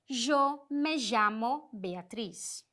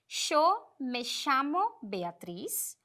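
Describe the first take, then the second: First: The ll is said like a zh sound. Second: The ll is said like an sh sound. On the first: "esse j" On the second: "este som mais de sh"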